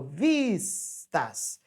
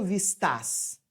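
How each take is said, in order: First: VISTAS drawn out slowly as VIIIS-tas; stress on first syllable. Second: VISTAS stressed on the last syllable, vis-TÁS; wrong final stress. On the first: Teacher showing students the tonic syllable, slow first-syllable stress on vistas. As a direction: stretch the VIS of vistas, then drop a light tas. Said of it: "eu falo vistas". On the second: Teacher showing students how it is not said, vistas with final stress. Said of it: "Eu não falo vistas". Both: Shown as a demonstration.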